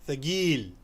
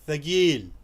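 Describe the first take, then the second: First: It is said in a Gulf Arabic accent. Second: It is said in a Gulf Arabic accent.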